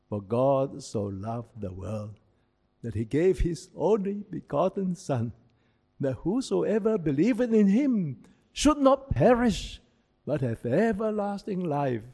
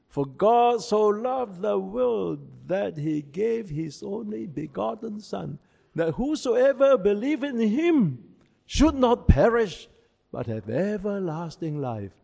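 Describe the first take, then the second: First: The verse is said at normal volume. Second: The verse is said loudly.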